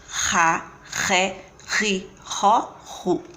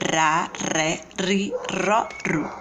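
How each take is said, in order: First: The R sound is strong and harsh. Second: The R sound is soft and weak. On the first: "o som forte" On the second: "lembrar do som fraco"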